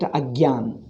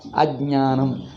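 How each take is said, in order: First: The middle cluster is pronounced gya. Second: The middle cluster is pronounced jnya. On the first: The speaker calls it wrong. "North Indians make it agyan" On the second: The speaker calls it right. "It should be ja and na should be nya"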